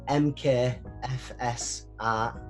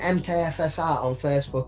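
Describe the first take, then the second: First: It is said slowly. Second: It is said at normal speed.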